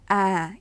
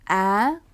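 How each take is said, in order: First: The pitch goes down from mid height. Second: The pitch goes high and rises. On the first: "내려가야 돼요" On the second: "그 모음을 좀 더 높은 톤으로 발음해야 된다는 뜻입니다"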